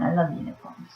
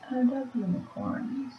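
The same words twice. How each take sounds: First: Said in the usual way. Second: High and hushed, swooning; high soft dreamy voice. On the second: Shown as a demonstration. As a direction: coo it like a starry-eyed girl. Repeats line in a new voice.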